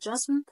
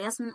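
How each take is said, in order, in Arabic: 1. الاسم يبدأ بصوت J. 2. الاسم يبدأ بصوت Y. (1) "الاتنين نطق صح" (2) "فاحنا في الألماني بنقول ياسمين عادي"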